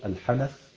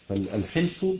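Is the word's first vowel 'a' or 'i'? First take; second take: a; i. First: First vowel is a; another a follows n. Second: First vowel is i; no vowel after n. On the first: "بفتح الحاء والنون" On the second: "بكسر الحاء وسكون النون"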